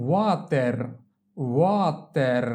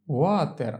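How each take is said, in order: First: Slow, held syllables in "water"; drawn-out model. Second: Said in the usual way. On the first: Shown as a demonstration. Teacher models water for learners, drawn out. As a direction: stretch "water" as a long wa, then ter.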